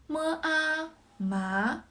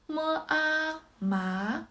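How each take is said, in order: Both takes have the same delivery.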